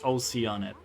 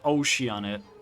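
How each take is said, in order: First: It starts with the sounds 'oh, sea'. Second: It starts with the sound of 'ocean'. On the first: The speaker calls it right. "It's Oceanid. ... Oh, sea!" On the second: The speaker calls it wrong. "It's not Oceanid. ... the way we thought of it is ocean"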